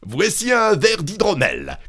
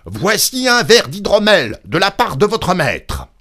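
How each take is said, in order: First: High-pitched call to someone hard of hearing. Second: Loud, high, insistent holler; exhausting shout. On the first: Innkeeper offering mead to the deaf old woman, calling out. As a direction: cry it out clearly, pitched up. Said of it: "cria-t-il à la femme morte". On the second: Innkeeper straining to reach the unmoving woman, hollering. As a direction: shout each phrase with all your might. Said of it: "il avait beau s'épuiser à crier". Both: A narrator's reading.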